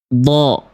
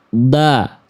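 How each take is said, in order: First: The vowel sounds dark and thick, like o. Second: The vowel sounds thin and pure, like a. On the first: The speaker calls it right. "Sempurnakan tebalnya dengan mengangkat pangkal lidah" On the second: The speaker calls it wrong. "Kalau nggak diangkat pangkal lidah jadi vokal A. Jadi tipis. Vokal A murni"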